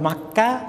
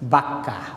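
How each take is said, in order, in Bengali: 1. নামটি m ধ্বনি দিয়ে শুরু। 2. নামটি b ধ্বনি দিয়ে শুরু। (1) "একটা হলো মাক্কা" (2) "একটা হলো বাক্কা"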